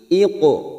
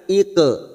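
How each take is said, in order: First: The Q echo is thick, like an o. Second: The Q echo is thin, like an e. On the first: The speaker calls it right. "tetapi iqo" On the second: The speaker calls it wrong. "Bukan iqe"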